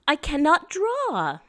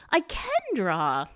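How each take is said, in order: First: Abby's sad cannot. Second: Abby's cheerful can. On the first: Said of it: "she will say". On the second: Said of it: "and say". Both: Retold or imitated.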